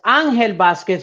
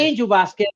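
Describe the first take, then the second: First: The name has a Spanish pronunciation. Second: The name has an English pronunciation. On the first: It is the proper form in the original language. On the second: It is easier for non-native speakers to say. "It's easier for a lot of um non-Spanish speaking people to say"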